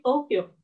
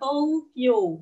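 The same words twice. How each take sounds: First: The o is lengthened with no u sound. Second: A separate u sound is pronounced after o. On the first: The speaker calls it right. "tapi Tokyo. Ini uh, istilahnya kayak baca panjang gitu" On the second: The speaker calls it wrong. "U-nya nggak dibaca ya, bukan Tokyo"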